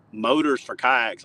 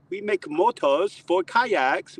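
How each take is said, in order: First: Slow, doubtful repeat of motors for kayaks; skeptical echo. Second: Put-on high, slow German-accented pitch; German sales pitch. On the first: Retold or imitated. [name] doubts the kayak motor pitch, skeptical. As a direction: scoff at the idea, plain voice. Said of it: "And I was like". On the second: Torqeedo owner pitches kayak motors, German accent. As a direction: sell it slowly in German English.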